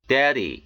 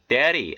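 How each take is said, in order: First: 'daddy' with a full middle D; unflapped D. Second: 'Daddy' with an R-like tap in the middle; American flapped D. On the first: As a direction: keep the second D in 'daddy' distinct. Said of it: "이렇게 발음해 틀린 것은 아니". ('daddy'의 D를 또렷한 ㄷ로) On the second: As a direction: flap the second D in 'Daddy'. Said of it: "연음 현상이 들어가서 이렇게". ('Daddy'의 가운데 D를 ㄹ처럼) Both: Shown as a demonstration.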